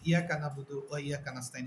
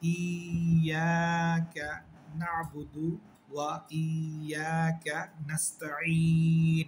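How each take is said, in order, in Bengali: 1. শেষের ka পরের শব্দের সাথে মিশে যায়। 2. শেষের ka পরের শব্দ থেকে আলাদা থাকে। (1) "এগুলো সব ভুল" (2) "বলতে হবে"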